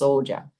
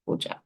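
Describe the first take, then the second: First: The word begins with an s sound. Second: The word begins with an h sound. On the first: "other than just" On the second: "there's an H in there"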